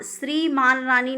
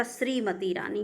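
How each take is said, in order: First: श्रीमान रानी with -maan in the title; wrong श्रीमान रानी. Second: श्रीमती Rani softer, with -matee; correct श्रीमती Rani. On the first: Teacher rejects the gender mismatch, maan in श्रीमान. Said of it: "नहीं होता". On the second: Teacher corrects students, softer -matee in श्रीमती. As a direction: say श्रीमती ending in long tee. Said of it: "होता है". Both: Shown as a demonstration.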